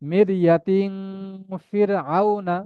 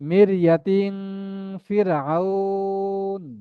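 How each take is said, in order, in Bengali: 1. শেষ শব্দটি একটি ছোট 'আ' স্বরে শেষ হয়। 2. শেষ শব্দটি শুধু 'ন' ধ্বনিতে শেষ হয়। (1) "দুটোই পড়তে পারি" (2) "যদি আ- ফিরাউনের এই শব্দে থেমে যায়, আমি নুনে হারাকাত পড়বো না।"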